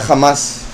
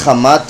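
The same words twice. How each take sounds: First: "Hamas" with a final S sound for the Tav. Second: Said in the usual way. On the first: Shown as a demonstration. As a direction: say "Hamas", ending in S rather than T. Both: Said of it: "pronuncian la Tav como la S".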